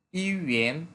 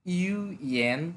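First: Said in the usual way. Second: "UN" slowly pulled apart into ইউ and এন; syllable by syllable. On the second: Shown as a demonstration. Teacher reviewing words for learners, "UN" slowly split in two. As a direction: separate the two halves of "UN", drawn out.

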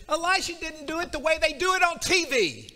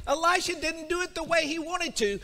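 First: Louder again, TV punched hard; full preacher's punch on T V; peak emphasis. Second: Mild preacher's emphasis; building emphasis. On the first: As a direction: hammer home the TV line. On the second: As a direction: preach it with a rising push. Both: Acted. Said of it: "he gets mad".

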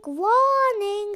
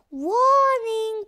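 First: Voiced robotic alarm, a bit louder; ship alarm voice. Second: Hushed robotic alarm warning; ship alarm voice. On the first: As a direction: call it out like a ship's computer. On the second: Acted. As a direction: whisper it like a ship's computer. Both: The ship's alarm speaks.

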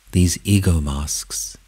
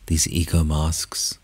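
The two takes are said the same way.

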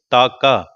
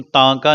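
First: ਤਾਕਾ with a clear open aa and no nasal sound; ਤਾਕਾ ਬਿਨਾਂ ਬਿੰਦੀ, ਸਾਫ਼ ਕੰਨੇ ਨਾਲ; correct plain vowel. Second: ਤਾਂਕਾ said with a nasal vowel on the first syllable, the wrong way; ਤਾਂਕਾ ਨੂੰ ਨੱਕ ਵਾਲੀ ਆਵਾਜ਼ ਨਾਲ, ਗਲਤ ਉਚਾਰਨ; wrong nasal reading. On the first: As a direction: say ਤਾਕਾ cleanly, no bindi nasal. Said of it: "ਬਿੰਦੀ ਨਹੀਂ ਲਾਉਣੀ ਉੱਤੇ". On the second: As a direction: read ਤਾਂਕਾ with the nasal taan sound the teacher warns against. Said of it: "ਇਹਨੂੰ ਤਾਂਕਾ ਨਹੀਂ ਪੜ੍ਹਨਾ". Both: Shown as a demonstration.

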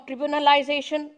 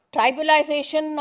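First: "tribunalization" said as trih-BYOO-nuh-lization; alternative pronunciation. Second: "tribalization" said as TRY-byoo-nuh-lization; variant pronunciation. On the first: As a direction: open "tribunalization" with a short "trib" sound. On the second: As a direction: open "tribalization" with a long "try" sound. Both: Shown as a demonstration. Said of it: "however you want to pronounce it".

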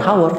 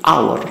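First: "hour" with the h sounded, like how-er with an h; wrong pronunciation. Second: "hour" with the h dropped, starting on a vowel; silent h. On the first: Teacher showing how not to read it, "hour" with audible h. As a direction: say "hour" wrongly, voicing its first letter h. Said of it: "Ini cara bacanya bukan hour". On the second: Teacher showing the correct reading, "hour" with silent h. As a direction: say "hour" like "our", no h at all. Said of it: "Hanya di silent atau dihilangkan". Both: Shown as a demonstration.

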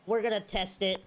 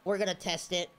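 The two takes are said the same way.

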